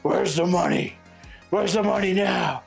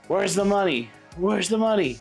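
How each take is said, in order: First: It is said in a deep Batman voice. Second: It is said in his normal voice.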